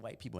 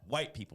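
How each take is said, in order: First: The word white is said in a lowered voice. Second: The word white is said at normal volume.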